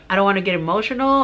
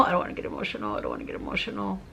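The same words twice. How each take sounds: First: Quick, urgent, trying to hold back tears; fighting emotion. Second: Soft near-whisper, holding back tears; fighting tears. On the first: Testimony giver trying not to get emotional, fighting tears. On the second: Testimony giver telling herself not to get emotional, hushed and choked up. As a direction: whisper it to yourself to keep from crying. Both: Real, not acted.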